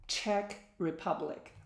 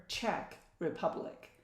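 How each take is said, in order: First: Said in the usual way. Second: "Czech" whispered softly as "tchek", the C Z sounding like ch; whispered reminder. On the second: Shown as a demonstration.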